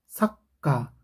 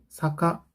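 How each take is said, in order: First: The 'k' is held and released forcefully. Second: The 'k' is quick with no hold. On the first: The speaker calls it right. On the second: The speaker calls it wrong.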